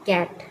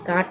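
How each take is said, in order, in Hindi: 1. स्वर 'cat' में 'a' जैसा छोटा है। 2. स्वर लंबा खुला 'aa' है। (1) "सी ए टी कैट कहेंगे" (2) "काट हम नहीं पढ़ेंगे"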